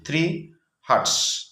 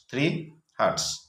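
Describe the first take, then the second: First: Slow and higher, spelling it out for the class; slow, careful dictation to pupils. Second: Said in the usual way. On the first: Shown as a demonstration. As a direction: dictate three hertz word by word, slowly. Teacher dictating the answer slowly.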